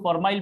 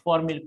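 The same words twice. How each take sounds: First: फॉर्माइल ending in "mile"; alternative pronunciation formail. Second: फॉर्मिल ending in a short "mil"; pronounced formil. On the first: Teacher showing how many others teach it, फॉर्माइल ending in "mile". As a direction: say फॉर्माइल with a long "ai" glide. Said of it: "कई लोग फॉर्माइल पढ़ाते हैं". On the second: Teacher giving students his reading of the name, फॉर्मिल with short "mil". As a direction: say फॉर्मिल with short i in the last syllable. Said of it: "या फॉर्मिल पढ़ते हैं". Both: Shown as a demonstration.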